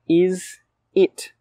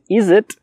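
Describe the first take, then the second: First: The two words are said fully and separately. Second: The words run together quickly as one voiced unit.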